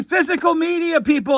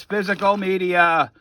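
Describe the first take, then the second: First: "Physical media" called out much higher, punched on "Physical"; emphatic proclaim. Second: Said in the usual way. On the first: Real, not acted. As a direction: preach "Physical media" like a rallying cry. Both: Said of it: "I've been telling you this".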